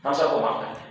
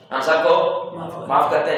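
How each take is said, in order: First: Hushed, almost whispered repeat; soft pardon. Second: Said in the usual way. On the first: Retold or imitated. Taliban repeating their pardon to everyone, hushed and soft. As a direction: let the pardon fall away softly, barely voiced. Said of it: "جیسے ہمارے مرشد".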